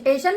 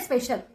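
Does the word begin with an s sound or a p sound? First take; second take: p sound; s sound. First: The word begins with a p sound, no s. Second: The word begins with an s sound before p. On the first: The speaker calls it wrong. "पेशल नाही" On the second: The speaker calls it right.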